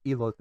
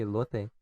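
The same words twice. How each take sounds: First: "elote" said in full as corrected. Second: "elote" said his own clipped-off way; mispronounced elote. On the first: Retold or imitated. Uncle correcting the speaker's word, "elote" in full. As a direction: give "elote" with its first sound intact. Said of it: "then my uncle, he told me". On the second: Shown as a demonstration. Explaining his habit to listeners, mispronounced "elote". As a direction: say "elote" without its full first part. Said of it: "I don't say the elote part".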